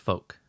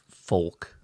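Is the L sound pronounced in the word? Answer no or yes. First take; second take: no; yes. First: The L sound is left out of the word. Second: The L sound is pronounced in the word. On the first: The speaker calls it right. "I don't add the L" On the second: The speaker calls it wrong. "So it's not folk"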